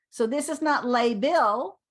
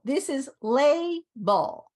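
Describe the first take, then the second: First: "label" said the wrong way as a counterexample; "not label", showing the mistake; the wrong "label" set against the right one; wrong pronunciation. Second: "label" said slowly and carefully, LAY-bel; drawn-out "label" to model the right sound; slow, clear "label" demo; right pronunciation. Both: Shown as a demonstration.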